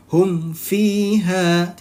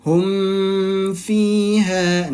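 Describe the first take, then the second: First: "Hum fiha" with the m clear and short, one beat; "Hum fiha", m released at once, no hum held. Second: "hum fiha" with the m humming on far too long; wrong held m. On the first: Teacher to students showing idhar syafawi, short and clear. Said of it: "Tidak usah ditahan". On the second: Teacher to students showing the wrong long hum. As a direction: drag the m in "hum fiha" like a nasal hold. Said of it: "Nah, itu kurang tepat". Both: Shown as a demonstration.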